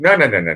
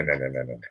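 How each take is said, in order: First: Said in the usual way. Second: "no" repeated, much quieter and lower, dying out; fading away quietly. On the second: Real, not acted. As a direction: let each "no" sink softer and lower until it nearly vanishes. Repeated no, trailing off.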